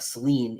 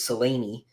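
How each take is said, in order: First: The name is said with two syllables. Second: The name is said with three syllables. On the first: The speaker calls it wrong. "It is not Celine" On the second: The speaker calls it right. "it's a three syllable name"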